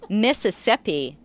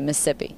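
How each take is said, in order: First: Every syllable of the word is pronounced. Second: Some syllables of the word are dropped. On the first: This is how the speaker used to say it. "I'm sure I used to say" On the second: This is how the speaker says it now, like locals. "now I say / We cut some syllables out"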